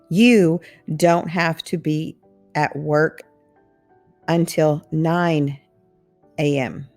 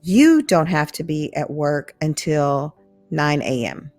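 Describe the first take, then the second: First: It is spoken slowly and carefully. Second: It is spoken at a natural, quicker speed.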